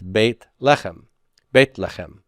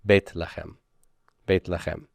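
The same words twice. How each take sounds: First: Beit Lechem with a throaty ch, stress on Lechem; Hebrew Beit Lechem. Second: Beit Lechem soft, stress on the second word; Beit Lechem stress shown. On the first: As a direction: Beit Lechem said as bayt LEH-khem. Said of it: "the way to say house of bread in Hebrew is". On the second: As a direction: quietly model Beit Lechem, leaning on Lechem. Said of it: "the accent's gonna be over here". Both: Shown as a demonstration.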